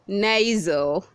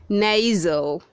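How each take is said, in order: The two takes are said the same way.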